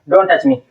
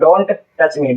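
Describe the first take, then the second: First: The t of don't is silent. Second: The t of don't is clearly pronounced. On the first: The speaker calls it right. "तो ये वाला टी हम silent कर देते हैं" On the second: The speaker calls it wrong. "तो टका आ रहा है बीच में, डिस्टर्ब कर रहा है"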